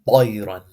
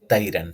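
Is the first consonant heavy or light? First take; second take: heavy; light. First: The first consonant is heavy and full. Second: The first consonant is light and thin. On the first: The speaker calls it right. "Notice how heavy and full of, like, my mouthful it sounds" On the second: The speaker calls it wrong. "If this was pronounced with the letter ta, this would sound like tayran"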